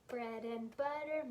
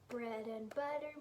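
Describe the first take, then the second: The two takes are said the same way.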